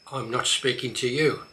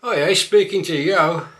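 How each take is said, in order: First: Said in the usual way. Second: Louder broad Black Country line; Black Country accent, loud. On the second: Shown as a demonstration. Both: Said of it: "A few more".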